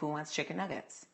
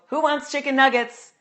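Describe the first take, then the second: First: It is lower and relaxed, without pushed energy. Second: It is loud, energetic and clearly enunciated. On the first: It is the voice used for casual talk at home. "I speak lower. I don't push the energy" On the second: It is the voice used for teaching an audience. "I don't need to project like that. I don't need to speak with such energy"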